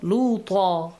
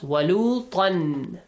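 First: The word ends in a long 'aa' vowel. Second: The word ends in 'an' and runs on. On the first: The reader stops after this word. "Make a pause" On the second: The reader continues into the next word. "But if you don't make a pause, you merge it to that waw"

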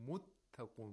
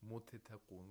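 First: The t is held, then released once forcefully. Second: The first t is released before the second. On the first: The speaker calls it right. "We only pronounce the second one, but with more intensity" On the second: The speaker calls it wrong. "We don't say muttaqun"

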